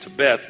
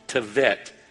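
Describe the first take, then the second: First: The middle consonant is a B sound. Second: The middle consonant is a V sound. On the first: The speaker calls it wrong. "it's spelled like it sounds like it should be T-E-B-E-T-H" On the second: The speaker calls it right. "but that B is actually a V sound"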